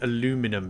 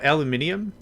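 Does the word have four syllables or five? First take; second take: four; five. First: The word is said with four syllables. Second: The word is said with five syllables. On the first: This is the form the speaker personally uses. "but I pronounce it aluminum" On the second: This is the form acknowledged as the proper one. "I know it's uh"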